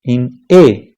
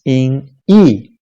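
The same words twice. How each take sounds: First: E said the Spanish way, as "eh"; name the letter E in Spanish, a pure "eh"; E as a Spanish "eh" vowel. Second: E said as English "ee"; name the letter E the English way, a long "ee". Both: Shown as a demonstration. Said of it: "in Spanish".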